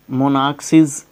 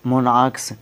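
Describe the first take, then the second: First: मोनार्क्सिस with an extra final SIS syllable; wrong plural pronunciation. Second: मोनार्क्स ending straight in KS; just add S after the K in मोनार्क्स; correct plural pronunciation. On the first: Teacher shows the plural to avoid, मोनार्क्सिस with extra syllable. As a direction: tack an ES syllable onto मोनार्क्सिस. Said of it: "मोनार्क्सिस नहीं करेंगे". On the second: Teacher models the plural for students, मोनार्क्स ending in KS. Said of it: "तो मोनार्क्स करेंगे". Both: Shown as a demonstration.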